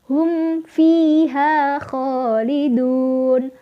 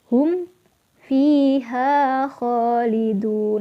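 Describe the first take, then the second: First: The words run on without a pause after hum. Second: There is a pause after the word hum. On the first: The speaker calls it right. "jangan berhenti, tapi harus lebih bersemangat" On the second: The speaker calls it wrong. "contoh yang salah adalah seperti ini"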